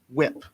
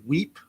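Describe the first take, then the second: First: The vowel is short, as in 'ship'. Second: The vowel is long, as in 'sleep'. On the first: "I don't know if I'm pr- pronouncing that correct" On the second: "or if it's supposed to be Weep"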